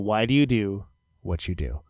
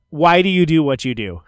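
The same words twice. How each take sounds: First: The question is said very quietly. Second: The question is said at louder volume.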